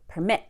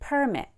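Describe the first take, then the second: First: The stress is on the second syllable. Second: The stress is on the first syllable. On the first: It is used as a verb. "When I say the word permit as a verb, I go like this" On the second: It is used as a noun. "if the same word becomes a noun, I'll do the opposite"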